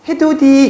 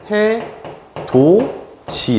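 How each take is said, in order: First: The middle consonant is a d sound. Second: The middle consonant is a j sound. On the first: The speaker calls it wrong. "국외음악 안 하면 굉장히 어색해지죠" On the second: The speaker calls it right. "발음은 해도지 이렇게 되죠"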